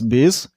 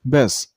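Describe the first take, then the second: First: The syllable has a full, clear vowel. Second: The syllable has a weak, a-like vowel. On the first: The speaker calls it wrong. "The second syllable isn't pronounced as bis" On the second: The speaker calls it right. "it's a little bit a sound"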